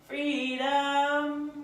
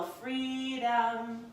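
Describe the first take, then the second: First: "Freedom" said higher and louder, drawn out; emphatic freedom. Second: Said in the usual way. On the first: Shown as a demonstration. Teacher encouraging students to move freely, emphatic. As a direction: lift and savour the word "Freedom".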